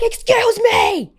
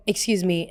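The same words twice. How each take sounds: First: Very high, loud, drawn-out shriek; top-of-lungs yell. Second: Said in the usual way. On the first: Retold or imitated. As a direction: scream it slowly to make her look at you. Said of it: "I yelled at the top of my lungs". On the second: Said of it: "'Cause I'm like".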